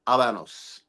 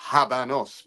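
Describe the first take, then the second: First: The word begins without any H sound. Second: The word begins with an audible H sound. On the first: The speaker calls it right. "The Spanish pronunciation" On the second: The speaker calls it wrong. "you pronounce the H"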